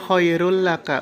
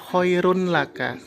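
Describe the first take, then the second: First: The n sound merges into the following l. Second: The n sound is clearly pronounced before l. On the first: The speaker calls it right. "Jadi dibacanya khairul laka" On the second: The speaker calls it wrong. "bukan khairun laka"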